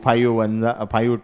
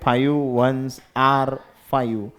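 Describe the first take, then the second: First: The phrase is run together as 'one ja five'. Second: The phrase is said clearly as 'ones are five'. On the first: The speaker calls it wrong. "आम्ही दहाव्या वर्गांत जाच म्हणेल आहे ना" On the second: The speaker calls it right. "अरे आर म्हणतात त्याला जा नाहीत"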